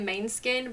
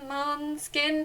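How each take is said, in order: First: The first syllable sounds like 'main'. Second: The first syllable sounds like 'moon' or 'mon'. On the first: The easy everyday way of saying the name. The speaker calls it wrong. "I'm going to pronounce this wrong because I say main skin" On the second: The attempted original way of saying the name. The speaker calls it right. "but I think it's like"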